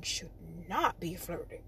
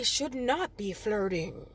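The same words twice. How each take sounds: First: Low, quiet warning repeat; soft, low, pointed aside; hushed emphasis. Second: Said in the usual way. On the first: Real, not acted. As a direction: lower the voice to make the point.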